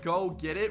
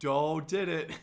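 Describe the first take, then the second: First: The first two words begin with G sounds. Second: The first two words begin with D sounds. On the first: The speaker calls it right. "Instead of saying go get it" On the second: The speaker calls it wrong. "I would say do did it"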